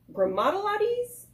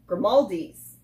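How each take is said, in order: First: "Grimaldi's" mangled as grim-odd-a-LAH-deez, rising high; butchered pronunciation. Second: "Grimaldi's" said as grih-MAHL-deez, falling; corrected pronunciation. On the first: Vlogger guessing at a pizzeria's name, "Grimaldi's" butchered as grim-odd-a-LAH-deez. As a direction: stumble into an extra syllable in "Grimaldi's", questioning. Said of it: "I butchered it". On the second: Vlogger correcting the pizzeria's name, "Grimaldi's" as grih-MAHL-deez. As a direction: land "Grimaldi's" cleanly in three syllables, grih-MAHL-deez. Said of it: "That's what it is".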